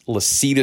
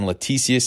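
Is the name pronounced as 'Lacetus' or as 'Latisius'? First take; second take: Lacetus; Latisius. First: The name is said as 'Lacetus'. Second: The name is said as 'Latisius'. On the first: The speaker calls it right. "It's Lacetus Smith" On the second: The speaker calls it wrong. "I've been pronouncing this guy's name wrong. I've been saying Latisius"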